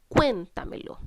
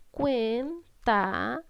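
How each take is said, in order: First: Cuéntamelo with the weight on CUÉN; stress on first syllable. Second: Cuéntamelo slowly split as cuén, ta, me, lo; slow, separated syllables for the class. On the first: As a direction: punch "Cuén", let "tamelo" follow lightly. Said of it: "Cargo la voz en cuen". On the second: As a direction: sound out each syllable with pauses. Teacher sounds out the syllables. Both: Shown as a demonstration.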